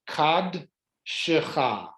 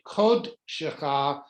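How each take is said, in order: First: The first vowel is an 'a' sound. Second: The first vowel is an 'o' sound. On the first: The speaker calls it wrong. "You would think it was" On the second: The speaker calls it right. "But it's actually"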